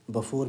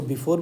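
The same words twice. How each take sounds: First: Before with a short neutral first syllable, buh-FOR. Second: Before with a clear "bee" first syllable, bi-FOR. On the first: Teacher giving students the other way to say it, before as buh-for. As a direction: say before as buh-for, the vowel barely there. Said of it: "before भी पढ़ सकते हैं". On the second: Teacher showing students one way to say it, before as bi-for. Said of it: "इसको before भी पढ़ सकते हैं". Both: Shown as a demonstration.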